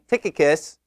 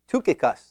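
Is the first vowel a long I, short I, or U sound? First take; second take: short I; U sound. First: The first vowel is a short 'ih' sound. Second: The first vowel is a rounded 'u' sound. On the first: "or is it a short I" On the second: "in the Greek, it is a U sound, an upsilon, so it's really"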